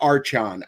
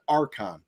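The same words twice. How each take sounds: First: "Archon" said with ch as in church, AR-chon; Archon with soft CH. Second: "Archon" said with a k sound, AR-kon; Archon with hard K. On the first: Gamer offering another reading of the name, Archon with soft CH. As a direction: say the ch in "Archon" like the start of chair. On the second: Gamer unsure of a game's name, Archon with hard K. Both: Shown as a demonstration. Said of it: "I don't know how you say it".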